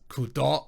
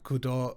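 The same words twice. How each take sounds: First: The stress is on the last syllable. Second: The last syllable is not stressed. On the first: The speaker calls it wrong. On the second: The speaker calls it right.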